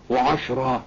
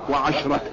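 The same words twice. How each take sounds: First: وعشرة said without sounding the ta, as Quranic "ashran"; feminine count form. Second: وعشرة with the ta form, as "wa-asharatan"; masculine count form. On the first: Teacher quotes the verse's wording to students, without the ta. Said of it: "لو كانت مذكر كان قال إيه". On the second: Teacher shows students the wording if days were meant, with the ta. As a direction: sound the ta ending on وعشرة. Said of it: "بالتاء مع المذكر". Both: Shown as a demonstration.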